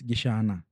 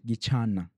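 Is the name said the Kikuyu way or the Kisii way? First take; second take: Kikuyu; Kisii. First: The name is pronounced the Kikuyu way. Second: The name is pronounced the Kisii way. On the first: "the way it is pronounced in Kikuyu is" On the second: "In Kisii is"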